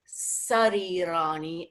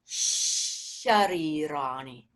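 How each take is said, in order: First: The first sound is a dental s. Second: The first sound is a palatal sh. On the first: The speaker calls it wrong. "what I heard was a dental sarirani" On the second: The speaker calls it right. "definitely a second mouth position palatal sharirani"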